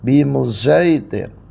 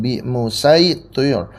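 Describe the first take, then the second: First: The s sound is blended toward z. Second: The s sound is a plain sin. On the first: "diismamkan, shadnya ke za" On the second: "shadnya diganti sin"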